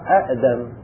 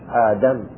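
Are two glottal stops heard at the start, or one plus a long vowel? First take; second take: two stops; long vowel. First: Two glottal stops are heard at the start. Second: One glottal stop is followed by a long vowel. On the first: This is the word's underlying original form. "أصلها أأدم، الهمزة الثانية ساكنة" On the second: This is the form actually used. "فقلبنا الثانية إلى جنس الفتحة وهو الألف"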